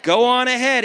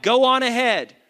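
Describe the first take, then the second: First: Louder again, the loudest of the two; preacher's emphatic repeat; call-out. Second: Raised, punchy call for the crowd to echo; rallying call-out. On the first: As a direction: drive it home with full voice. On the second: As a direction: say it big so they shout it back. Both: Shown as a demonstration. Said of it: "Somebody shout".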